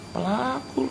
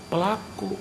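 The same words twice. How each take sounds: First: Pelaku repeated higher, stressed. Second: Said in the usual way. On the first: Shown as a demonstration. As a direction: lift Pelaku up to press the point home. (Pelaku diucapkan lebih tinggi dan ditekan)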